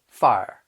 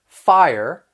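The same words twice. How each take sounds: First: The word ends with a soft, weak R. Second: The word ends with a clear, strong R.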